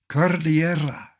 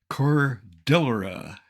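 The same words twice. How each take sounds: First: The word is said with a Spanish pronunciation. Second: The word is said with an English pronunciation. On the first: The speaker calls it right. "Cordillera is Spanish, and beautifully so" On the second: The speaker calls it wrong. "you will hear Cordillera. Ugh"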